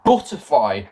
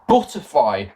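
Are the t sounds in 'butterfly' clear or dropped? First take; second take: clear; clear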